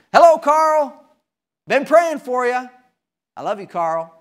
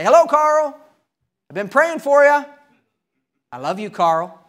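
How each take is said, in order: First: Cheery preacher greeting. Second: Bright, high, loud call of hello; cheery preacher greeting. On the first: Preacher greeting Carl again in the driveway, cheerful. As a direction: call out a warm hello, then ease down. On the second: Preacher greeting his neighbor from the driveway, cheerful and loud. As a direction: sing out a friendly hello across the driveway. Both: Retold or imitated.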